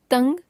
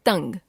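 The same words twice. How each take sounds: First: तंग with the pitch rising; तंग left hanging on a rise; error example, rising. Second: तंग with the pitch falling; corrected form, falling. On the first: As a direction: lift the end of तंग. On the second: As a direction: close off तंग with a fall. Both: Shown as a demonstration. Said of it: "अनुस्वार और अनुनासिक संबंधी अशुद्धियां".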